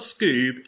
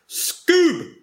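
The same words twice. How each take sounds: First: It is said flatly, without excitement. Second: It is said loudly, with excitement.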